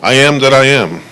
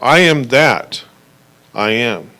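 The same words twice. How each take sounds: First: It is said without a pause after 'that'. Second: It is said with a pause after 'that'.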